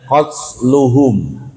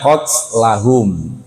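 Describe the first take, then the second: First: The vowel after 'qatl' is u. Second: The vowel after 'qatl' is a. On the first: The killing is the subject of a passive verb. "kalau dibaca sayuk tabu maka bacanya qatluhum" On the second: The killing is the object of 'we write'. "kalau kita bacanya sanak tubuh maka bacanya qatlahum"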